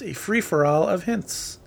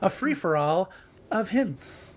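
First: It is said in the speaker's normal voice. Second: It is said in an imitated celebrity voice.

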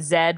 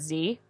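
First: The letter is said as 'zed'. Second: The letter is said as 'zee'.

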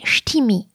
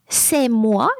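First: It is said in a Picard accent. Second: It is said in standard French.

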